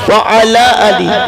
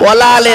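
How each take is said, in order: First: Each word is separate, sounding like wa ala ali. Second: The words are merged, sounding like wala ale. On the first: It means and upon the family. The speaker calls it right. "কি বললাম বাবা? ওয়া আলা আলি।" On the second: It gives a negative meaning. The speaker calls it wrong. "ওয়ালা আলে বললে নফির মানে হবে"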